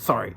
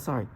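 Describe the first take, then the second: First: It is said curtly, without warmth. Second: It is said warmly, with a smile. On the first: "I'm not gonna be like" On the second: "I'm like smiling"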